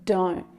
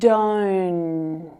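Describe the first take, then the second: First: The final T sound is stopped short. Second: The final sound is held and continues longer. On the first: "that sound is stopped short" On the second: "sound continues for longer"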